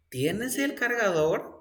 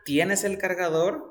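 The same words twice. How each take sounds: First: ¿Tienes el cargador? asked with a rising question tune; question rise. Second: Said in the usual way. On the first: Shown as a demonstration. Teacher contrasting statement and question, rising tune. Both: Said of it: "It's a question".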